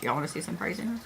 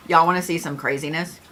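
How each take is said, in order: First: Very soft, secretive repeat; hushed teasing. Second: Said in the usual way. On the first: Real, not acted. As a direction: drop it right down as a hushed tease. Teasing repeat, dropped very low.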